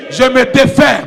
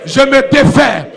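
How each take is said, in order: Both takes have the same delivery.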